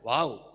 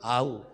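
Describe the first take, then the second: First: It is said with lively, excited energy. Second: It is said flat and limp, like a sigh. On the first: The speaker calls it right. "അങ്ങനെയല്ല ഞാൻ പറയണത്, നോക്ക് ഇതെങ്ങനെ" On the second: The speaker calls it wrong. "നിങ്ങൾ പറയുന്നത് ആവു, അത് ഗ്യാസാ"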